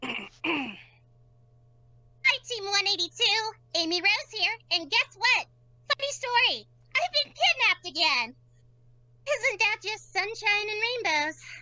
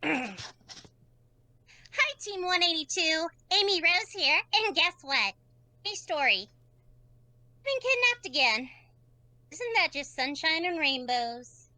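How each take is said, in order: First: It is said with more energy. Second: It is said with lower energy.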